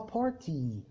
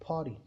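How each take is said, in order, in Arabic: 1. حرف t اللي في النص بيتنطق t واضحة. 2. حرف t اللي في النص بيتنطق زي طرقة سريعة شبه r. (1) "احنا بننطقها بارتي" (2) "هما فعلا بيقولوها باري"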